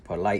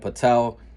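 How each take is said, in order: First: The name ends with a 'lite' sound. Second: The name ends with a 'tel' sound. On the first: The speaker calls it right. "It's Polite or something like that" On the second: The speaker calls it wrong. "I kept calling him Patel, or I figured out it's not"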